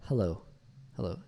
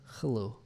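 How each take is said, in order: First: HELLO with a light, breathy-free English h; soft English h. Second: HELLO begun with a scraped ch sound; throaty ch for h. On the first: Shown as a demonstration. Coach models the right hello, soft h. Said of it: "it should be more like a". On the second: Retold or imitated. Coach imitates the learner's hello, ch for h. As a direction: imitate hello with a raspy ch in place of h. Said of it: "sounds like he's saying like a ch".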